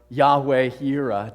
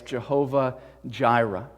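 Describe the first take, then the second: First: The name begins with a 'y' sound. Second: The name begins with a 'j' sound. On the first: This is closer to the original Hebrew. The speaker calls it right. "I think Yahweh is the more accurate pronunciation" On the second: This is the familiar form from older English usage. The speaker calls it wrong. "two different ways of pronouncing the same uh, Hebrew word"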